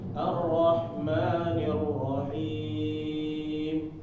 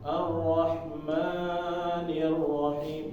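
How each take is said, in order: First: The vowel in 'ma' is held briefly. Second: The vowel in 'ma' is drawn out very long. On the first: The speaker calls it right. "seharusnya dia mat biasa ya, mat asli yaitu dua harokat aja" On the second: The speaker calls it wrong. "Jangan jadi menjadi ... terlalu panjang"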